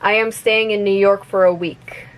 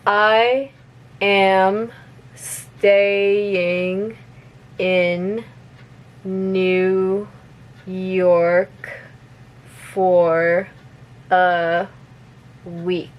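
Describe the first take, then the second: First: The sentence is spoken at normal, fast speed. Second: The sentence is spoken very slowly. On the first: "one more time at normal speed" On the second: "I'm gonna repeat it slowly first"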